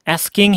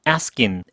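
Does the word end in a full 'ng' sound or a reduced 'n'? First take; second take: full ng; reduced n. First: The ending is pronounced as a full 'ing'. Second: The ending is reduced to a softer 'n' sound. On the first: "asking이라고 ing 발음이 나도 좋고요" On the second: "아니면은"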